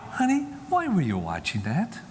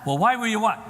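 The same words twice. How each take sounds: First: Easy, gentle parental question; casual, loving. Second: High, raised-voice demand, cut off; mock accusing. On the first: Acted. Mother asking her son why he watched, casually. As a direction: ask it lightly, without accusation. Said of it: "And then just casually". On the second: Parent pouncing on son about what he watched, accusingly. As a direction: demonstrate the wrong, confronting way.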